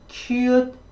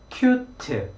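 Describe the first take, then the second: First: The final t has no vowel, making one syllable. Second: An extra vowel follows the final t, making two syllables. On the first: The speaker calls it right. "영어는 이 cute, cute라고 해서 일음절로 발음이 되는데요" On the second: The speaker calls it wrong. "한국식으로 발음하면 cute, cute 이렇게 발음합니다"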